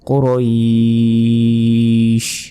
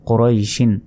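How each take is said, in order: First: The word stops on a bare final consonant. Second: The word ends with a nasal '-in' ending. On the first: Reading stops at this word. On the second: Reading continues past this word.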